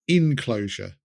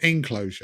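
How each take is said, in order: First: The word begins with an 'in' sound. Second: The word begins with an 'en' sound.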